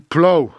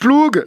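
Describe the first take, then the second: First: The word ends with an ow vowel. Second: The word ends with a hard g sound. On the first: The speaker calls it right. "je crois que ça se prononce to plow" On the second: The speaker calls it wrong. "Donc ploug"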